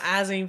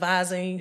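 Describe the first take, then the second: First: The word starts without a v sound. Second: The word starts with a v sound. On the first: The speaker calls it wrong. "Get some Izine for your eyes instead of Visine" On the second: The speaker calls it right. "instead of Visine"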